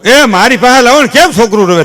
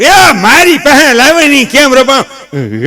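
First: Put-on higher, louder old grandpa calling out; old grandfather. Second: Put-on much higher, louder, slow old granny voice; grandmother. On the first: Grandfather demands the crying baby, higher and louder. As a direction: call out eagerly as the old grandfather. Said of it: "ઓલો grand father". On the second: Grandmother begs for the crying baby, high and slow. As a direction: stretch out the plea like an old granny. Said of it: "grand mother".

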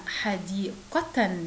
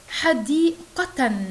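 First: A calm slow echo of حديقة; slow demo repeat. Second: حديقة stretched very slowly and louder, ending in a clear nun sound; drawing out حديقة so the hidden nun is heard; slow demo reading. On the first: Teacher repeats حديقة slowly so children echo it. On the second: Teacher stretches حديقة slowly and loudly for young pupils. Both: Shown as a demonstration. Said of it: "تعالوا مع بعض نشوف بعض الأمثلة".

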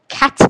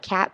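First: CAT said louder, French-style, with a hard final t; French word quatre. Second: Said in the usual way. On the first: Shown as a demonstration. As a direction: punch CAT as a French number. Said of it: "It's kinda like cat, but". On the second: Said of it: "but it's like cat".

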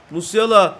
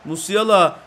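The two takes are said the same way.

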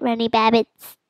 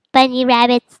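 First: Runny Babbits with R and B swapped from bunny rabbits; spoonerism. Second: Said in the usual way. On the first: Shown as a demonstration. Player correcting a slip, stressing Runny Babbits. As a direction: say Runny Babbits, first sounds flipped. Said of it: "I mean, bunny rabbits, not". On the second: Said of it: "I mean".

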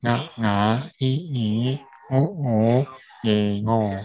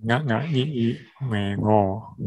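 First: Slow, nasal 啊啊i i u u e o; nasal syllable drill. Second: Nasal 啊啊i i u u e o run together at normal pace; nasal drill at pace. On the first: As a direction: model 啊啊i i u u e o slowly through the nose. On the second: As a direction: repeat 啊啊i i u u e o smoothly through the nose. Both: Shown as a demonstration. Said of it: "它是鼻音".

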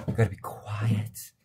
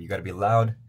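First: Drawn-out, breathy near-whisper; quiet demo. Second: Raised, punchy volume; loud demo. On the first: Solo recorder explains echoey room demands, hushed and slow. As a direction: draw it out in a slow hush. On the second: Solo recorder explains echoey room demands, loud. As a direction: push the voice out louder. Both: Shown as a demonstration.

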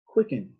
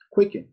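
First: Said in the usual way. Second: Quicken punched out higher and louder; emphatic key word. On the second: Shown as a demonstration. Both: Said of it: "use the word quicken".

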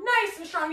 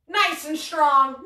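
First: Said in the usual way. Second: Strong and proud. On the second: Shown as a demonstration.

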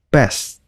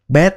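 First: "best" said as "bes" without the final t; dropped t. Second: "best" alone with the t sounded at the end; full final t. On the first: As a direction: drop the t in "best" inside a sentence. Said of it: "các bạn không có cần để cái chữ t nha". ("best" bỏ âm t cuối) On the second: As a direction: say "best" in isolation with its t. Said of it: "nếu mà đọc một mình á, thì các bạn đọc là". ("best" đọc riêng, có âm t cuối) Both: Shown as a demonstration.

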